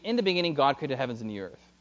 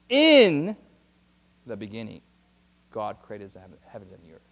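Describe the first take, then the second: First: It is read straight through at a plain pace. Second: It is read slowly, lingering on the words. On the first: The words are only being read. The speaker calls it wrong. "when you just read it like that, you're just reading" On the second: The words are being meditated upon. The speaker calls it right. "Meditating upon scripture is this"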